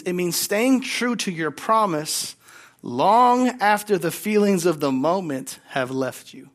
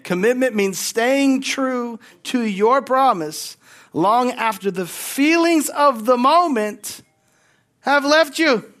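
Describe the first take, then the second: First: Said in the usual way. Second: Louder, higher and slower, building to a cry; emphatic preaching. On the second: Shown as a demonstration. Pastor repeating the line to the congregation, louder and slower. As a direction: drive it home like a preacher, slowly. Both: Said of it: "I'm gonna say it again".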